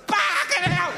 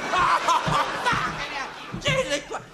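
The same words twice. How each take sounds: First: Much higher, sharp cry of pain; pained yelp. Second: Much higher, very slow stretched cry; drawn-out howl. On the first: Patient yelps as coffee is poured in, high pained cry. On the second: Patient howls at the hot coffee, slow stretched cry. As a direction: howl it out long. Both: Acted.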